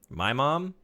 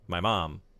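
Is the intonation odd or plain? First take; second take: odd; plain. First: The phrase has an odd, unusual intonation. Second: The phrase has a plain, ordinary intonation. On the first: The speaker calls it wrong. "I gave that a weird intonation" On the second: The speaker calls it right. "Not my mom"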